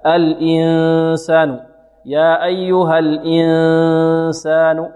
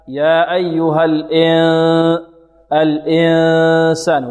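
First: Pure "i" in "الإنسان", long nasal n; slow chant keeping "الإن" a clear i; preserved kasra. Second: Slow chant with "e" for i in "الإنسان"; wrong kasra. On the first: Teacher correcting the error, clean kasra recitation. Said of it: "نحافظ على الكسر". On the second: Teacher repeating the error, faulty vowel recitation. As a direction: let the i of "الإن" open into e. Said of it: "لا نقول". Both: Shown as a demonstration.

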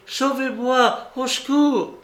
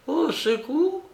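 First: The aunt imitating his high cry, au secours; a hammed-up call for help; mock cry for help. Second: Au secours in a mock hoarse, high voice; mock hoarse cry. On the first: Aunt mimicking her nephew's cry, high and strained. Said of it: "tu as tout à coup crié". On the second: Aunt mimicking her nephew's hoarse cry. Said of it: "d'une voix si enrouée".

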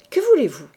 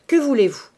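First: Sharp, louder demand; angry demand. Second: Louder, sharper repeat; repeated angry demand. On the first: Priest snapping at the intruding woman, angry. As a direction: snap the question at her. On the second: Priest repeating his demand to the woman, angry. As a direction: hit the question again, impatient. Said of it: "répéta-t-il". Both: A narrator's reading.

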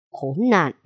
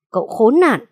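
First: Khốn nạn growled low through the teeth before the outburst; low growled curse. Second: Cậu khốn nạn shouted out, higher and louder; furious shout. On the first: Father growls at the young man before exploding. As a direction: hold the anger in on Khốn nạn. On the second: Father yells at his daughter's ex-husband, furious. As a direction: let Cậu khốn nạn burst out in a yell. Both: Acted. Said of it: "gằn giọng đầy phẫn nộ".

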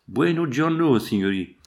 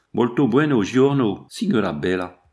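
First: Put-on rude Italian accent. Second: Louder, pushier Italian greeting to the lady; rude Italian accent. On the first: Shepherd mockingly greets the travellers, brash Italian accent. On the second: Shepherd leers at the young lady, loud Italian accent. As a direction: lean into the Italian accent, leering. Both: A narrator's reading. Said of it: "l'accent dont elle fut prononcée".

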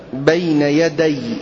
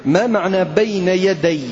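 First: بين يدي repeated slowly with the weight on يدي and a falling end; slow the phrase down and lean on يدي; slow stress on يدي. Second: Said in the usual way. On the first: Shown as a demonstration. Teacher repeating the Quran phrase slowly for the class, stressing يدي.

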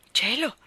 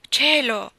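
First: "Cielo!" higher with a rising, admiring lift; a bright rising "Cielo!" of admiration; admiring exclamation. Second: A loud, higher gasp of dismay; loud shocked "Cielo!" with a falling end; shocked exclamation. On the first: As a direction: gasp it in delight. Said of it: "esclamai ammirata". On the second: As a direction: cry it out, shaken. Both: A narrator's reading.

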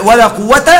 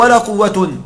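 First: قوة ending in an open "-ta", no "n"; misread ending. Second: قوة ending in "-tun"; corrected nominative ending. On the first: Teacher misreads the example before correcting himself, قوة ending in "-ta". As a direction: say قوة as "quwwata", held at the end. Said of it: "عفوًا، أو ولا قوة". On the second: Teacher corrects his slip for the class, قوة said as "quwwatun". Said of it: "عفوًا، أو". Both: Shown as a demonstration.

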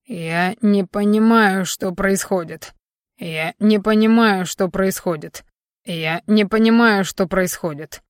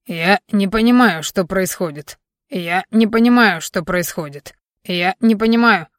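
First: Same flat phrase looped mechanically; parrot-like repetition. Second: Parrot-like repetition. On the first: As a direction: repeat it like a stuck recording. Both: A narrator's reading. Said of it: "как попугай повторял одну и ту же фразу".

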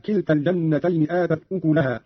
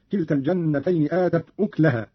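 First: Said in the usual way. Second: أكلها with no vowel on the k, "uklaha"; silent-vowel kaf. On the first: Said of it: "قرأ قالون بإسكان الكاف". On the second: Shown as a demonstration. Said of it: "بإسكان الكاف هكذا".

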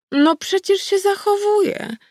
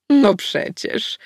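First: High, slow and playful goddess voice; an ancient she-wolf teasing, pitched up; old wolf goddess. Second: Put-on very slow, smug old she-wolf; smug goddess. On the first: Goddess insists to her granddaughter she behaves, high and teasing. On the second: Goddess smugly admits she watched the fight. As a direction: draw it out, pleased with yourself. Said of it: "zadowolona z siebie". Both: A narrator's reading.

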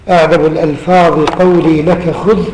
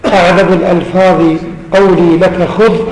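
The two takes are said the same way.

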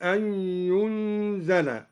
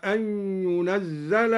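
First: ينزل said "yunzala", single z; lightened reading. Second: Said in the usual way. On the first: Shown as a demonstration. Teacher showing al-Duri's lightening, ينزل as "yunzala". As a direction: hum the n of ينزل, then an undoubled z. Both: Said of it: "قرأ الدوري بالتخفيف".

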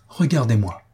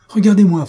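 First: Said in the usual way. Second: High, loud urgent command; insistent demand. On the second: A narrator's reading. Mario holds Faustine's hands, demanding loudly that she look. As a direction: raise it sharply to compel attention. Repeats the appeal far more forcefully.

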